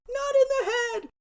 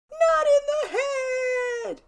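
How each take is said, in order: First: Put-on high, loud kid's yell; shrill-pitched mock yell of a drilled victim; yelled protest. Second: Very high, loud, slow wail; long high-pitched cry of a tormented brother; drawn-out yelled protest. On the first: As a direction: yell it high, pleading with your brother. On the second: Retold or imitated. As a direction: wail it louder, stretching the last word. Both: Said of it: "while he yelled".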